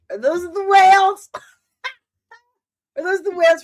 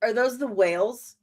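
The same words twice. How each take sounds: First: High, loud thrilled cry; excited shriek. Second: Said in the usual way. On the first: Real, not acted. Fan spotting the whales from Star Trek Four, shrieking. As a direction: yelp it out in sudden delight.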